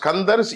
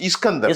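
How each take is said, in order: First: The word starts directly with the 's' sound. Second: The word starts with an added 'i' vowel. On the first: "அத தமிழ்ல ஸ்கந்தர்னு சொல்றோம்" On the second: "நம்ம பொதுவா பேச்சு வழக்குல இஸ்கந்தர்"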